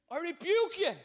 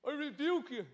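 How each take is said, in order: First: Loud commanding rebuke with full teeth; bold rebuke with teeth. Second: Toothless rebuke, lips over teeth. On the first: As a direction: bark out the rebuke, high and loud. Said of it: "It's better with teeth". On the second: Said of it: "It just hasn't got the same". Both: Shown as a demonstration.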